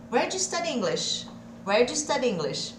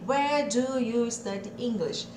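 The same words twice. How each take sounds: First: "Where do you study English?" with do you merged; connected speech. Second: Slow, "Where do you study English?" said word by word; slow separated words. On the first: Teacher modelling the natural question, fluid. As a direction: run where do you together smoothly. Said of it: "aqui eu vou ter o de". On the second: Teacher contrasting the stiff textbook version, slow. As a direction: say each word apart, slowly. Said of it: "Ao invés de". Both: Shown as a demonstration.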